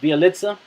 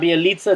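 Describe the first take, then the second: First: The first vowel sounds like 'eye'. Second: The first vowel sounds like 'ee'. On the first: The speaker calls it right. "it's an I" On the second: The speaker calls it wrong. "it's not Bielitsa"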